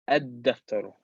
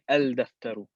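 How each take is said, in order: First: The 'l' merges into a doubled 'd' sound. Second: The 'l' sound is clearly pronounced before 'd'. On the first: The speaker calls it right. "we're saying ad-daftaru" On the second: The speaker calls it wrong. "We're not saying al-daftaru"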